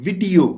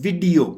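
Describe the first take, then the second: The two takes are said the same way.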